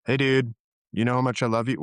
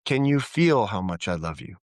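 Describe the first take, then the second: First: Quick, offhand "know how much I love you"; "you know how much I love you" tossed out fast; casual, from the head. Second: Lower, sincere "feel how much I love you"; heartfelt question, weight on "feel"; from the heart. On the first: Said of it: "Let me put me in my head". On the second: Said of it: "speaking from our heart resonance". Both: Shown as a demonstration.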